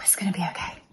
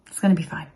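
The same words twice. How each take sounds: First: Whispered to herself; whispering. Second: Said in the usual way. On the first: Real, not acted. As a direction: whisper it to calm yourself down. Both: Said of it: "I'm really telling myself that".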